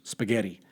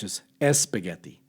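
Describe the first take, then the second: First: English pronunciation, starting directly with S. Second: Spanish pronunciation, starting with an added vowel. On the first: "in English" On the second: "In Spanish"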